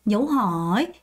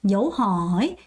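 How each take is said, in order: Both takes have the same delivery.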